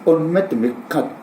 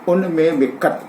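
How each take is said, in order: First: The final syllable is said on a high pitch. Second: The phrase is said on one level pitch. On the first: The speaker will not kill. "यदि त का सुर ऊंचा हो" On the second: The speaker will kill. "यदि एक सुर में कहा जाए"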